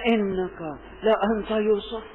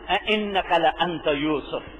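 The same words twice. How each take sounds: First: It is said with fear, hope and astonishment mixed. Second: It is said calmly, without strong emotion.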